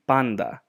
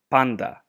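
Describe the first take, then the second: The two takes are said the same way.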